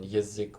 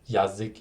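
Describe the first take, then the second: First: The first vowel is reduced to an E sound. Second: The first vowel is a full A sound. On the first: The speaker calls it right. "the A then turning into like E or like E when when it's unstressed, like in язык" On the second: The speaker calls it wrong. "which isn't yazik, even though it's spelled with ya"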